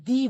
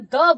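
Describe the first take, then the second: First: The vowel is a long 'ee' sound. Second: The vowel is a short 'uh' sound. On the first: It comes before a vowel sound. "Vowel sound के आगे हम लोग क्या बोलते हैं, दी बोलते हैं" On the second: It comes before a consonant sound. "Consonant sound के आगे हम लोग क्या बोलते हैं बेटा, द बोलते हैं"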